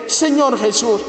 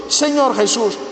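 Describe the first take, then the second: No difference in how they are said.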